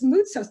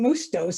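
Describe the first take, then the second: First: The t sound comes before the s. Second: The t sound comes after the s. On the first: The speaker calls it right. "The T is before the S" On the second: The speaker calls it wrong. "I kept thinking Moustos in my head"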